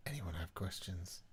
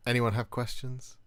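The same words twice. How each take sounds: First: Hushed whisper of the question. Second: Said in the usual way. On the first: Pretend. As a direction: breathe it out in a whisper.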